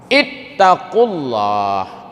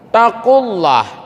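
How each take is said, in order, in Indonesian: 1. Kata ini diawali dengan bunyi 'i'. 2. Kata ini langsung diawali 't', tanpa 'i'. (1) "ambilnya dari ittaqullah" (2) "jangan diwakaf ya ayyuhalladzina amanu taqullah"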